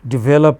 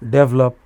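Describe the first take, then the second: First: The stress falls on the usual syllable. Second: The stress is shifted, sounding like 'double up'. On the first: The speaker calls it right. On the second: The speaker calls it wrong.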